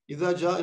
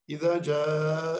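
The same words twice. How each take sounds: First: The vowel in câe is cut short. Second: The vowel in câe is drawn out long. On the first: The speaker calls it wrong. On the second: The speaker calls it right. "uzatacaksınız iki"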